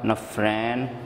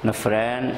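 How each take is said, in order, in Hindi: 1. दूसरा स्वर 'ai' जैसा बोला जाता है। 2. दूसरा स्वर 'ai' जैसा बोला जाता है।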